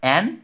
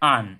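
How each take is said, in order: First: The word has a full, open 'a' vowel. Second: The word has a short, reduced vowel. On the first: This is the strong form of the word. "এই strong এর ক্ষেত্রে দেখা যাচ্ছে যে অ্যানের উচ্চারণ অ্যান" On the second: This is the weak form of the word. "আর উইক ফর্মে দেখা যাচ্ছে যে অ্যানের উচ্চারণ আন"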